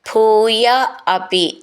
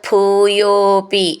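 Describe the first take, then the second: First: The two words are said separately. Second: The two words are merged into one word.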